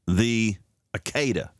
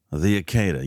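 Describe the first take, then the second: First: Akedah said slowly, each syllable drawn out: ah-KAY-dah; slow careful Hebrew word. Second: Said in the usual way. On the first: Shown as a demonstration. Radio host teaching listeners the word Akedah, said slowly. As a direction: spell out Akedah slowly for the audience.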